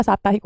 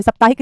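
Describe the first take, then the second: First: साप्ताहिक with long first 'aa'; lower, softer "SAAP-taahik" for साप्ताहिक; correct pronunciation. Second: साप्ताहिक with short first vowel, "sap-taahik"; wrong pronunciation. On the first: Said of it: "साप्ताहिक होता है". (साप्ताहिक में लंबा 'सा') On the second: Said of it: "नहीं होता बेटा". (साप्ताहिक को 'सप्ताहिक' बोलना) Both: Shown as a demonstration.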